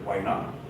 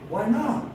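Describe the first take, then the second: First: It sounds like casual, willing agreement. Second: It sounds like a puzzled, genuine question. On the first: The speaker accepts the offer. "yeah, sure, of course" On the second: The speaker asks for the reason behind a refusal. "Why don't you want to come with me?"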